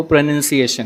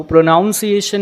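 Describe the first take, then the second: First: प्रोनंसिएशन with a short NUN; correct pronunciation. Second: प्रोनाउंसिएशन with a NOUN in the middle; wrong pronunciation. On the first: Teacher corrects it in Hindi, correctly pronounced प्रोनंसिएशन. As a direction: say प्रोनंसिएशन as pro-nun-see-ation. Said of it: "वो प्रोनंसिएशन है". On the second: Teacher rejects it in Hindi, mispronounced प्रोनाउंसिएशन. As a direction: say प्रोनाउंसिएशन as pro-NOUN-see-ation. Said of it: "नहीं है". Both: Shown as a demonstration.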